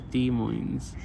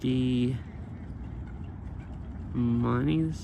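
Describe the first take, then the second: First: The second word has no final 'ee' sound. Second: The second word ends with an 'ee' sound.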